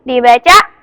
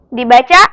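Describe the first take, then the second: No difference in how they are said.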